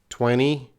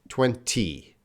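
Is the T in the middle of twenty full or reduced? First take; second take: reduced; full. First: It is said fast with a reduced middle T. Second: It is said slowly with a full middle T.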